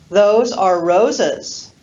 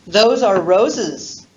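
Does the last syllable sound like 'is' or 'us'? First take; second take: us; is. First: The last syllable ends in an 'us' sound. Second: The last syllable ends in an 'is' sound. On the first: The things belong to Rosa. "Sentence number one" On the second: The things are flowers. "Sentence number two"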